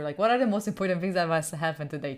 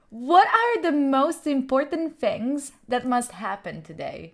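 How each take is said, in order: First: Said in the usual way. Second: Slow mantra reading. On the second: Shown as a demonstration. Reading a mantra to chat, slow and solemn. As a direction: read it slowly like a solemn self-help mantra. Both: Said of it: "This is actually true".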